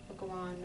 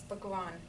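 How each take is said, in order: The two takes are said the same way.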